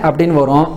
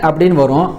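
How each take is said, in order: No difference in how they are said.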